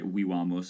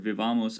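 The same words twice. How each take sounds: First: It uses the classical Latin pronunciation. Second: It uses a non-classical Latin pronunciation.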